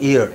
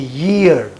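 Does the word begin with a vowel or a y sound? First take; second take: vowel; y sound. First: The word begins directly with a vowel sound. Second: The word begins with a y sound. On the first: The speaker calls it wrong. "It is not ear" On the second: The speaker calls it right. "It should be year"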